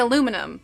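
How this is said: It has four syllables, ending in -num. "so I say aluminum"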